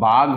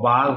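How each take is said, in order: First: The final consonant is aspirated, a breathy gh. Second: The final consonant is unaspirated, a plain g. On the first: "বয়াকার ঘ বাঘ" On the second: "আমাদের সাধারণ উচ্চারণে বয়াকার গ বাঘ হয়ে যায়"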